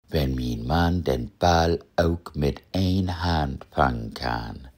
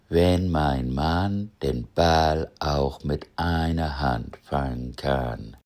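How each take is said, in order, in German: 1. Vollständige plattdeutsche Aussprache. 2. Norddeutsches Hochdeutsch mit leicht gedehnten kurzen Vokalen. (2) "wie im Norden ein kurzer Vokal vor einem weichen Konsonanten etwas gedehnt wird"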